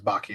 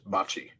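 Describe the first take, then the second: First: The middle consonant is a hard k sound. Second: The middle consonant is a ch sound. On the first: The speaker calls it wrong. "I don't think it's Baki" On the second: The speaker calls it right. "I think it is Bachi"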